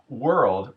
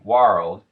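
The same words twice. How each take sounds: First: The vowel is the standard er sound. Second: The vowel is an ar sound.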